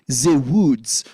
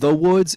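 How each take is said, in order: First: It is said in a French accent. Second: It is said in a plain accent.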